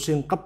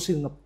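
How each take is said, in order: First: A k sound is heard before the p. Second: No k sound is heard before the p. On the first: This is a form some people use. "Ada yang nyebut singkep itu juga monggo" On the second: This is the literary form. "kalau secara bahasa sastra itu singep"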